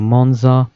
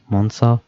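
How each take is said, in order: First: "Monza" with a voiced z; "Monza" with a buzzing z in the middle; pronunciation variant. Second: "Monza" with an s sound for the z; "Monza" with a hissed s in the middle; pronunciation variant. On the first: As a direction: say "Monza" as MON-zah. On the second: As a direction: say "Monza" as MON-sah. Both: Shown as a demonstration. Offers two pronunciations of track name.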